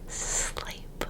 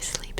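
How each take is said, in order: First: The S is drawn out into a long hiss. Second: The S is short and plain, without hissing. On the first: The speaker calls it wrong. "I never go sleep. Sleep like a snake" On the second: The speaker calls it right. "I do say sleep sometimes"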